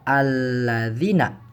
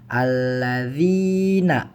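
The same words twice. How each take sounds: First: The vowel after z is cut short. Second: The vowel after z is held long. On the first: The speaker calls it wrong. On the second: The speaker calls it right. "Maka dibaca panjang juga"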